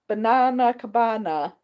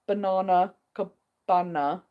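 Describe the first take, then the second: First: Banana Cabana with a flat American a, banAna, slowed; attempted American accent. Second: Banana Cabana with a long English ah in baNAHna, slow; English pronunciation. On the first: Host attempts an American way of saying Banana Cabana, mock American accent. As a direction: try the name in a mock American accent, a bit slow. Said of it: "I should say that the American way". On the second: English host says Banana Cabana her own way, slow English pronunciation. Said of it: "being English, I would say". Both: Shown as a demonstration.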